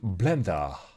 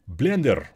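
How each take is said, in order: First: It is said with an English accent. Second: It is said with a Russian accent. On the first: "If I have to say it in English accent" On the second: "with Russian accent"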